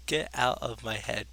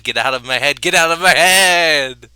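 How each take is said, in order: First: Softer, slower, drained; quiet after scream. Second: Slow, drawn-out scream of the line; screamed climax. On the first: Reading the poem aloud, the line drops to a drained hush. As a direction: pull back to a hush after the outburst. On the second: Reading the poem aloud, he screams the last repeat. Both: Acted.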